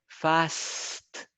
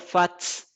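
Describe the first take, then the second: First: The s comes before the final t. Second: The t comes before the final s. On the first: The speaker calls it right. "Y es la S antes de la T" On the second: The speaker calls it wrong. "me está pronunciando la T primero antes que la S"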